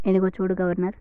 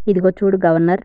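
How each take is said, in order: First: Said in the usual way. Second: Louder, commanding king. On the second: Acted. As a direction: call him out sharply. King repeats his order to governor. (గట్టిగా ఆజ్ఞాపిస్తూ)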